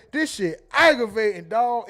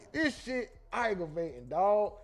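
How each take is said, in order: First: Aunt voice. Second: Said in the usual way. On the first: Retold or imitated. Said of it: "in my aunt voice, which is a queso voice". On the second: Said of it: "That nigga say".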